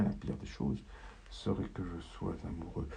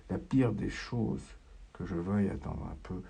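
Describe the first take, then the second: First: Whispered. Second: Softly crooned. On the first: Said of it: "je me le chantonne". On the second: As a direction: hum it to yourself to keep calm. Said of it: "Je me chantonne que". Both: Acted.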